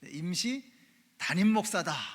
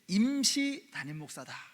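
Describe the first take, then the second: First: The word 담임 carries the emphasis. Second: The word 임시 carries the emphasis. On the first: The pastor is seen as the real senior pastor. The speaker calls it right. "이렇게 생각하셔야 그 말씀이 들리기 시작해요" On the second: The pastor is seen as only temporary. The speaker calls it wrong. "이러면 설교가 안 들립니다"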